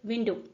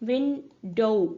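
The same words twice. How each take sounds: First: The final vowel is a single steady sound. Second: The final vowel glides between two sounds. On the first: This is the older pronunciation. "It was just विंडो" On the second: This is the later pronunciation. "Diphthong की तरह इसको pronounce किया जाने लगा, यानी कि last में दो साउंड्स होते थे"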